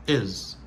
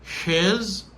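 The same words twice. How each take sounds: First: His reduced to "is"; short, H-less "is"; dropped H. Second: "His" with a clear H; higher, full "His"; full form. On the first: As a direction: say his without H, "is". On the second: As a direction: sound the H in "His". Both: Shown as a demonstration. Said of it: "l'a perdu son H".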